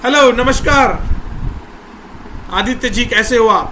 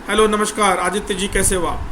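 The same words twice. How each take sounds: First: It is said warmly, with a smile. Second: It is said flatly, without a smile.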